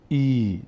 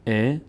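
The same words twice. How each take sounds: First: ای drawn out slowly as "eee"; long ee vowel. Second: ا as a short "e"; short e vowel. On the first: Teacher showing what e became, long slow "ee" on ای. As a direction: stretch ای into one long ee. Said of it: "شد ای". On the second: Teacher showing the vowel before the change, short "e" on ا. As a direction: say ا as a simple e. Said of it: "ببینیم ا". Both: Shown as a demonstration.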